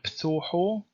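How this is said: The vowels are pronounced as O, Western style.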